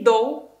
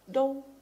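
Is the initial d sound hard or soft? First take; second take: hard; soft. First: The initial d is hard and explosive. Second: The initial d is soft and less explosive. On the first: The speaker calls it wrong. "Не до" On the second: The speaker calls it right. "немножечко нужно ее смягчить"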